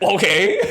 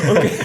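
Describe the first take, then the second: First: Laughing okay. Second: Said in the usual way. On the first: Retold or imitated. Retold stunned reaction.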